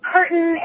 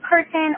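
First: The middle T is dropped, Denver style. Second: The middle T is pronounced clearly.

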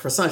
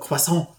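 First: The word is said plainly, without emphasis. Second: The word is said with exaggerated emphasis.

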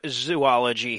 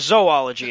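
First: The first syllable sounds like 'zoo', rhyming with two. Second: The first syllable sounds like 'zo', rhyming with toe. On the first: The speaker calls it wrong. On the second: The speaker calls it right.

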